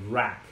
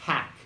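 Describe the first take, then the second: First: The word starts with a harsh, growling r sound. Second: The word starts with a soft, breathy h sound. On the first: The speaker calls it wrong. "Esse daqui não é hack. É rrr, cachorro bravo" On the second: The speaker calls it right. "com som de H, ó. Soltando o ar"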